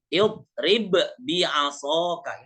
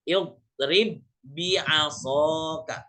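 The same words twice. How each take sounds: First: The first b is released with a bounce, separated. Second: The two b sounds merge into one doubled b. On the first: "Asli katanya begini. Aslinya ini" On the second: "seperti kita membaca tasydid. Tidak dibaca qalqalah"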